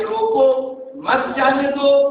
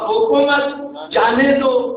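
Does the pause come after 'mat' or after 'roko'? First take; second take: after roko; after mat. First: The pause comes right after 'roko'. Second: The pause comes right after 'mat'.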